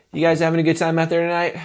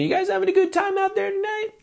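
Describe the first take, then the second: First: A shaky, unsure question to the crowd; nervous stage question. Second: High, bright stage call; singer greeting the crowd. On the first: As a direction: ask it like you fear the answer. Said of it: "you can hear the nervousness". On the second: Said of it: "a lot of singers will say is like". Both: Shown as a demonstration.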